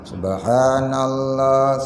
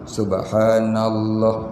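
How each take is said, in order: First: The sounds are slurred and not fully pronounced. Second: Each sound is pronounced carefully and fully. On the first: The speaker calls it wrong. "pelajar di sini yang degil buat kepala dia" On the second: The speaker calls it right. "macam mana sebut tajwidnya?"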